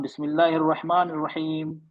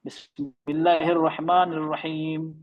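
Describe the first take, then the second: First: बिस्मिल्लाहिर्रहमानिर्रहीम with the र्र barely doubled; weak r. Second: बिस्मिल्लाहिर्रहमानिर्रहीम recited slowly; slow careful बिस्मिल्लाहिर्रहमानिर्रहीम; recitation slow. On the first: Retold or imitated. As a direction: run बिस्मिल्लाहिर्रहमानिर्रहीम without stressing the र्र. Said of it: "ऐसा हो रहा था ना". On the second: Shown as a demonstration. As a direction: draw out बिस्मिल्लाहिर्रहमानिर्रहीम like tilawat. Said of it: "रा वाज़े नहीं हो रहा था".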